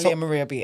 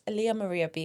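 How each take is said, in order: First: The name is said quickly. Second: The name is said slowly. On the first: The speaker calls it wrong. "am I saying it fast?" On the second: The speaker calls it right. "At a slower pace"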